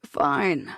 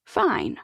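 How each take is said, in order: First: Low, defeated Fine; a touch of exasperated surrender; resigned doctor. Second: Higher, satisfied Fine; enjoy winning the argument; a hint of a pleased old lady; beaming. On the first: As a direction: give in with a sigh. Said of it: "throws his hands into the air". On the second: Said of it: "Mandy beams". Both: A narrator's reading.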